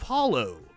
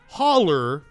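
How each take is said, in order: First: The word ends with an 'oh' sound. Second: The word ends with an 'er' sound. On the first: This is the standard way the station wanted. "instead of hollow" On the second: This is the local Eastern Kentucky way of saying it. "I said holler instead of hollow"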